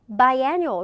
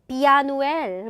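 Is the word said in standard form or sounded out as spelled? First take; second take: standard; sounded out. First: The word is said in its standard English form. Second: The word is sounded out letter by letter. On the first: The speaker calls it right. "이렇게 발음을 해야 되는데" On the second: The speaker calls it wrong. "보이는 대로 비아누엘 뭐 약간 이렇게 읽는다거나"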